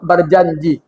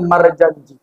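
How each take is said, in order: First: The word begins with the syllable 'ber'. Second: The word begins with the syllable 'mar'. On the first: This is how people from Tanjung Balai say it. "Kalau orang Tanjung Balai bilang" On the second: This is how people from Medan say it. "Kalau orang Medan"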